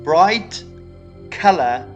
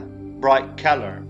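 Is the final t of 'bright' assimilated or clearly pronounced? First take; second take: clearly pronounced; assimilated. First: The t at the end of bright is pronounced clearly. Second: The t blends into the following k sound. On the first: "Instead of saying" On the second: "would say"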